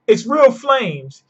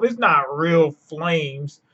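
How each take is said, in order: First: REAL pitched high, slow and emphatic; emphatic rebuttal. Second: Slow, drawn-out mimicking of doubters; mimicked naysayers. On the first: Real, not acted. Answering the doubters of Red Hawk, slow emphatic rebuttal. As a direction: correct them firmly, stretching "real flames". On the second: Quoting people who doubted Red Hawk, slow dismissive mimicry. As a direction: quote the naysayers, dragging it out. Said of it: "all the people that said".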